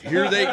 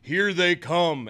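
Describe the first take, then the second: First: It is said in a normal voice. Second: It is said in a deep announcer voice.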